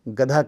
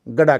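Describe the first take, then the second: First: The middle consonant is a breathy dh sound. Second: The middle consonant is a plain d without breath. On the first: A native Hindi speaker is saying it. The speaker calls it right. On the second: A native English speaker is saying it. The speaker calls it wrong.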